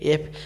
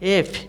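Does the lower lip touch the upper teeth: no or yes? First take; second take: no; yes. First: The lower lip does not touch the upper teeth. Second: The lower lip touches the upper teeth. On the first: The speaker calls it wrong. "কিন্তু এটা ভুল উচ্চারণ" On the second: The speaker calls it right. "নিচে যে ঠোঁটটা এটা উপরে দাঁতের একটু ভিতর দিকে ঢুকে যাবে"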